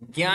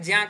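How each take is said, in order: First: The syllable uses the everyday North Indian pronunciation. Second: The syllable uses the Vedic pronunciation. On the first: This is the form commonly taught in schools. "ज्ञा ही पढ़ाया गया है" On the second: This is the form used in Vedic recitation. "वैदिक उच्चारण ज्या करते हैं"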